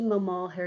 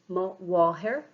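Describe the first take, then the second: First: The noun begins with an m sound. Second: The noun begins with a w sound. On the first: The speaker calls it wrong. "that's incorrect" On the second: The speaker calls it right. "It should be ma wahir"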